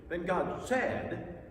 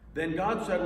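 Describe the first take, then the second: First: The word said is said forcefully. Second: No word is said with extra force.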